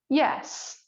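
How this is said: The yes sounds clear and firm. "a clear, firm yes"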